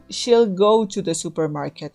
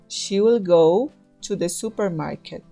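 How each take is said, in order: First: She will is shortened to one syllable, she'll. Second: She will is said as two full words.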